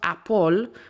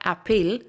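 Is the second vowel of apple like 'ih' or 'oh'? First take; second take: oh; ih. First: The second vowel sounds like 'oh'. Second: The second vowel sounds like 'ih'. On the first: "they go A P P O L" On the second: "It's not an I sound"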